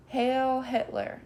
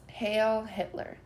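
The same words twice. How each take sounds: First: Slow, higher barked salute; puppet shouting. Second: Put-on children shouting echo. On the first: Nazi puppet saluting the audience, slow shout. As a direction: bark the salute stiffly. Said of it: "shouts the puppet". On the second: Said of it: "shouts the children". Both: A narrator's reading.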